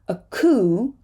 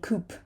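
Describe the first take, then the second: First: The word ends without a P sound. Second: The word ends with a P sound. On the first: The speaker calls it right. "It's a coo" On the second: The speaker calls it wrong. "We're not going to say coop"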